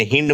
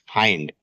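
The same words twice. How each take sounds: First: "हिंड" with a short i, as in hint; wrong pronunciation. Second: "हाइंड" with a long eye vowel; correct pronunciation. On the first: Teacher warning students off a misreading, "हिंड" with short i. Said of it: "इसे हिंड मत पढ़ना". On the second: Teacher giving students the correct reading, "हाइंड" with eye vowel. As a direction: say "हाइंड" to rhyme with find. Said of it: "इसका correct ... pronunciation होता है". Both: Shown as a demonstration.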